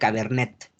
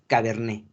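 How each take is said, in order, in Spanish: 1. La T final se pronuncia. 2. La T final es muda. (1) "no se pronuncia Cabernet" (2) "es Cabernet"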